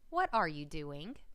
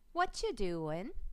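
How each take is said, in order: First: The phrase is said in full, every word clear. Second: The phrase is reduced, with a word dropped. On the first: The speaker calls it right. "instead of" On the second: The speaker calls it wrong. "slurring your words together"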